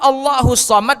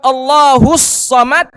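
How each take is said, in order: First: The phrase is said at normal strength. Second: The phrase is said loudly and forcefully. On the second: "kalau dia perkuat"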